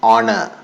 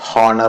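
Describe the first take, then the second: First: The initial h sound is silent. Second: The initial h sound is pronounced. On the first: The speaker calls it right. "എച്ച് silent ആണ്" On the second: The speaker calls it wrong. "തെറ്റായിട്ടാണ് അത് pronounce ചെയ്യുന്നത്"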